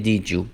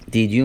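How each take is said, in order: First: "did you" blended into "dih-joo"; "did you" with a j in the middle; linked sounds. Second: Said in the usual way. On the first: Shown as a demonstration.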